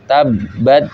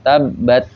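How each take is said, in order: First: The final consonant sounds like a d. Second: The final consonant sounds like a t. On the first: The speaker calls it wrong. "jadi si ujung lidahnya itu kena lebih dominan ke gusinya" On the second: The speaker calls it right. "harusnya kalau makhrajnya pas"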